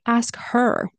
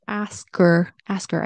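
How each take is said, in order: First: "Ask her" with a clear h in her; full h. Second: "Ask her" linked as askher, no h; dropped h. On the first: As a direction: say the h in "her" separately. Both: Shown as a demonstration. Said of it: "I didn't say".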